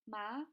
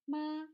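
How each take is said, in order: First: The pitch rises toward the end. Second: The pitch stays high and level. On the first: It means hemp. "the high-rising tone" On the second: It means mother. "the high-level tone"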